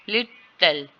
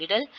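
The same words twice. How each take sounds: First: "little" split in two, first part stronger; syllable by syllable. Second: Said in the usual way. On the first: Shown as a demonstration. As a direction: break "little" into lit and tel. ("little" को दो syllable में तोड़कर) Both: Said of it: "strong है".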